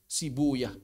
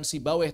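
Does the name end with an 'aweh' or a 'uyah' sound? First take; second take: uyah; aweh. First: The name ends with a 'uyah' sound. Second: The name ends with an 'aweh' sound. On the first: This is the original Persian reading used by hadith scholars. The speaker calls it right. "tapi Sibuyah" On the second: This is the reading used by the jurists. The speaker calls it wrong. "Bukan Sibaweh"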